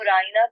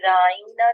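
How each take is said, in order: First: The word is said plainly, vowels not stretched. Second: The word is said with a stretched, drawn-out vowel. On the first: A polite request for attention. "लफ्ज़ को राइना को" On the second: It becomes a mocking insult, our shepherd. "बिगाड़ के राइना कहना शुरू कर दिया... ज़रा खींच के मदे डाल के बात करना"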